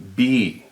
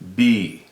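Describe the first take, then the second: First: The vowel sounds like 'ee' in 'bee'. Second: The vowel sounds like 'ee' in 'bee'.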